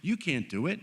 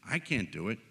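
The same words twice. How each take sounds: First: "You" punched high, then a dip; stress on You. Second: "I" stressed, at ordinary pitch and volume. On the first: Preacher admitting nobody manages alone, stressing "You". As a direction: lift "You" clearly above the rest. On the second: Preacher including himself in the weakness, stressing "I". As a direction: put the weight on "I", turning it on yourself. Contrasts I with you. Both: Real, not acted.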